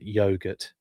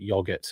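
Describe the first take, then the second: First: The word is said with an American pronunciation. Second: The word is said with a British pronunciation. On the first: "I know you guys pronounce it yogurt" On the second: "I call it yogurt"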